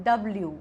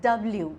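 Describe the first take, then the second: Both takes have the same delivery.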